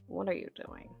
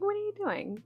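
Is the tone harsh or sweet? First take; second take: harsh; sweet. First: It is said in a harsh, side-eye tone. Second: It is said in a sweet, quizzical tone.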